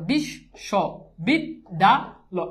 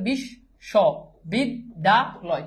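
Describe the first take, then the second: First: The word is broken into five separate chunks. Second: The word is broken into four separate chunks. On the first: "একটা দাগ একটা অক্ষর" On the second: "আমি যদি এভাবে উচ্চারণ করি"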